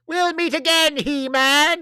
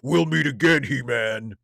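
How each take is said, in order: First: It is said in a high-pitched voice. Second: It is said in a lower voice. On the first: It sounds like the character. The speaker calls it right. "Skeletor needs to have a high pitched voice" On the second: It does not sound like the character. The speaker calls it wrong. "That just doesn't read as Skeletor to me"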